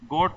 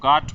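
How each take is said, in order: First: The vowel is a rounded 'o' sound. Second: The vowel is an open 'aa' sound.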